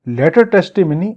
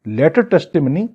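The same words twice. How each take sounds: The two takes are said the same way.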